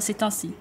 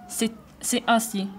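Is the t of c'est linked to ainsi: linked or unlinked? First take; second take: linked; unlinked. First: The t is linked to the next word. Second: The t is not linked to the next word. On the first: The speaker calls it right. "car il faut faire la liaison" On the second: The speaker calls it wrong. "tu as dit"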